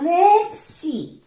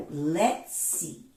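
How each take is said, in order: First: "Let's see" jumps much higher, sung out; sing-song tease. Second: Quiet follow-up. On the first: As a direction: tease the reveal up high. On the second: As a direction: murmur it back down. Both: Shown as a demonstration. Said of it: "teasing build-up to the reading".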